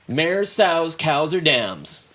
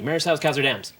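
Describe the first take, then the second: First: The list is said at a normal pace. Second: The list is said quickly.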